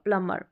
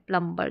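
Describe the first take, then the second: First: No b sound is heard after the m. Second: A b sound is heard after the m. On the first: The speaker calls it right. "बी का sound नहीं आएगा" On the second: The speaker calls it wrong. "Without नियम आपने पढ़ा होगा तो इसको प्लम्बर बोल बोलते हैं"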